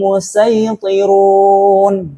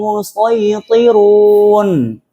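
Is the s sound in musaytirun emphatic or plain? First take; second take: plain; emphatic. First: The s sound is light and plain. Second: The s sound is heavy and emphatic. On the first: "Sekarang kita baca dengan sin" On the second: "Itu bacaan pertama dengan shot"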